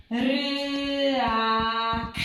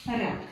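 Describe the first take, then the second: First: Sung glide. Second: Said in the usual way. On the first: Shown as a demonstration. Teacher demonstrating the glide reading, sung. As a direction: sing Ryak, sliding through the y. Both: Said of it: "zawsze śpiewająco".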